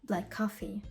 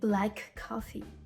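First: The two k sounds merge into one. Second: The k sound is pronounced twice, separately. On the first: The speaker calls it right. "К ми чуємо один раз" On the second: The speaker calls it wrong.

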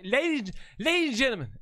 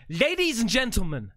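First: The words are slurred together, barely pronounced. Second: The words are pronounced clearly and fully.

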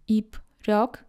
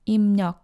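First: The first syllable ends in a p sound. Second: The first syllable ends in an m sound. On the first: "We write 입력" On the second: "but read it as 입력"

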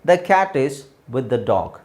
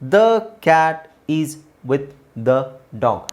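First: It is read smoothly without pauses between words. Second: It is read slowly with pauses between words. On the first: "second time third time ನಾವು ಓದಬೇಕಾದ್ರೆ" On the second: "first ನಿಮಗೆ ನಿಧಾನಕ್ಕೆ ಓದಿ ಹೇಳಿದೆ, ... gap ಇದೆ ಮಧ್ಯದಲ್ಲಿ"

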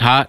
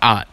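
First: The word begins with a clear h sound. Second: The word begins with the h sound dropped. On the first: "If he's hot" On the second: "Somebody I work with actually can't pronounce his H's"

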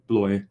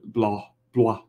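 First: The name is said with an English pronunciation. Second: The name is said with a French pronunciation. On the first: The speaker calls it wrong. "than Blois" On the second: The speaker calls it right. "Blois sounds more French"

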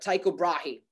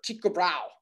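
First: The name is pronounced the English way. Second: The name is pronounced the Danish way.

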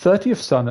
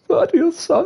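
First: It is said in the speaker's normal voice. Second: It is said in a put-on character voice.

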